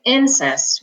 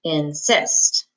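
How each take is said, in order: First: "insist" said IN-sist; wrongly accent the first syllable of "insist"; stress on first syllable. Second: "insist" said in-SIST; short pause, then "insist" with the accent on the second syllable; stress on second syllable. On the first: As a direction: punch the "in" of "insist". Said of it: "we don't say insist". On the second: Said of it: "this second syllable has the accent". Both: Shown as a demonstration.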